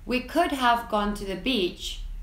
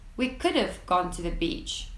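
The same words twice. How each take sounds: First: Could have is said as two full words. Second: Could have is contracted into one short syllable.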